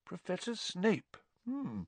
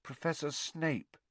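First: Soft musing teacher; thoughtful. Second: Soft, slow frightened mumble; a scared boy hardly daring to say it; barely a whisper. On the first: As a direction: turn the name over thoughtfully. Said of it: "looked thoughtful". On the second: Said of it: "in barely more than a whisper". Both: A narrator's reading.

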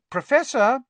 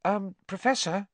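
First: Loud, very high call; insistent high summons. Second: High, tentative call at normal volume; hesitant, polite opener; cautious. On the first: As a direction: raise the voice to wake him. Trying to rouse a sleeping teacher. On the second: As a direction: try his attention gingerly. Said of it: "approached Professor Lupin cautiously". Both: A narrator's reading.

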